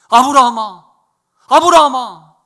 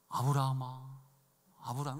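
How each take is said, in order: First: The name is called urgently and quickly. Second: The name is called calmly and slowly.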